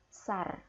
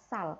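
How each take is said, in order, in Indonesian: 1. Suku kata ini diakhiri dengan bunyi R. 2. Suku kata ini diakhiri dengan bunyi L. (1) "bukan sar ya" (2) "dibacanya adalah sal"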